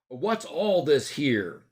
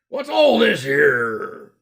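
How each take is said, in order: First: It is said in a plain, neutral way. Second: It is said in the character's put-on accent. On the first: "That's basically" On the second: "but he said it like this"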